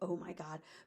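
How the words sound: It sounds like a flippant, casual exclamation.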